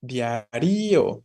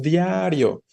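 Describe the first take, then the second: First: Diario as dia-RÍ-o, the í stretched out; wrongly stressed RI. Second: Diario with DIA drawn out, rio short after it; stress on DIA. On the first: Teacher shows how we don't say it, diario as diaRÍo. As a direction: lean long on the í: diarÍo. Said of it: "No lo decimos de esa forma". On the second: Teacher corrects to usual form, diario with long stressed DIA. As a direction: lengthen the first syllable of diario, DIAA-rio. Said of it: "decimos diario". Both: Shown as a demonstration.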